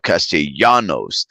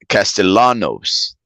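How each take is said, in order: First: The double L is sounded as a Y. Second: The double L is sounded as an L. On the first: "the double L, which sounds like a Y in Spanish" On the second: "they will say like L"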